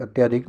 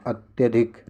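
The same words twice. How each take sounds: First: अत्याधिक with long aa after त्य; wrong long aa. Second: अत्यधिक with short a after त्य; correct short a. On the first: Teacher shows the common mistake, long "tyaa" in अत्याधिक. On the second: Teacher corrects students' spelling, short "tya" in अत्यधिक. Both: Shown as a demonstration. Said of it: "अत्याधिक नहीं".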